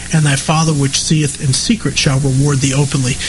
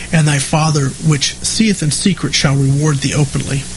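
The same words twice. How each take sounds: Both takes have the same delivery.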